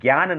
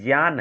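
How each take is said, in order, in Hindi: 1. पहला संयुक्त अक्षर j ध्वनि से नहीं बोला जाता। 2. पहला संयुक्त अक्षर j ध्वनि से बोला जाता है। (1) "हम लोग उच्चारण जो करते हैं गलत करते हैं। ज्ञान नहीं है" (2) "वास्तव में ज्ञान है"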